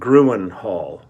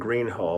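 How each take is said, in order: First: The first word sounds like two syllables, groo-en. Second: The first word sounds like one syllable, green. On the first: The speaker calls it wrong. "I was pronouncing it Gruen Hall" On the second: The speaker calls it right. "rather than Green Hall"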